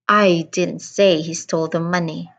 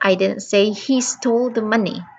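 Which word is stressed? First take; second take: I; he. First: The word I is stressed. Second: The word he is stressed. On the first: Someone else said it. "I emphasized on the first word, I" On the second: Someone else stole the money. "I stressed on the word he"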